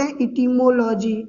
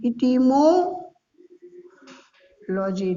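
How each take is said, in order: First: Said in the usual way. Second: Etymology stretched very slowly, syllable by syllable; drawn-out etymology. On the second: Shown as a demonstration. Teacher drawing out etymology for his students, very slow. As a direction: spell etymology out for the class at a crawl. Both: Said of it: "teacher repeating the answer term".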